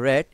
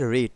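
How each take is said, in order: First: The vowel is a short 'e' sound. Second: The vowel is a long 'ee' sound. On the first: It is the past form of the verb. "এরপরটা হচ্ছে রেড" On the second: It is the present form of the verb. "প্রথমেরটা হচ্ছে রিড"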